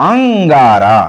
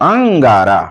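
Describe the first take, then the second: No difference in how they are said.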